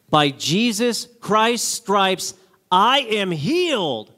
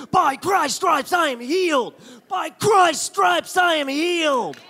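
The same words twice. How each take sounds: First: Slow, deliberate declaration; slow mantra. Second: High, slow chanted declaration; chanted mantra. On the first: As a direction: spell out the mantra slowly. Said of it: "Say this every day". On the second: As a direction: chant it at the mirror. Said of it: "I said it for an hour a day". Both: Retold or imitated.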